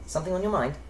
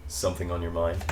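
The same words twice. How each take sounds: First: Put-on light, airy, high English accent; lilting English elf, pitched well up; English elven voice. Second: Put-on low-key American accent, pitched well below the English elf; American-voiced elf's pillow talk. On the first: Demonstrating the game's English elf voice option, light airy English accent. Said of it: "pick the elven voice to be". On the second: Elf leaning on the pillow asks Dorian, in the American voice. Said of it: "your English voice or your American voice".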